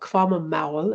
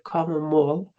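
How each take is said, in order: First: The vowel is said as an 'ow' diphthong. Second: The vowel is said as a plain 'o'. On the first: This is how the local dialect says it. "in my dialect, which is called kvamamaul" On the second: This is how most of Norway says it. "instead of kvamamol"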